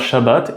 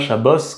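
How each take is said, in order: First: The word ends with a T sound. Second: The word ends with an S sound. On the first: This is the modern Hebrew pronunciation. "on dit bien Shabbat" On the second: "et pas Shabbos comme en ashkénaze"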